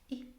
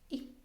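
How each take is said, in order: The two takes are said the same way.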